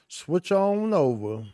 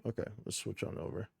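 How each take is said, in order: First: Higher, louder, slow singsong; hyped singsong. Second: Said in the usual way. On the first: Real, not acted. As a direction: belt it out playfully. Sung out loud and slow.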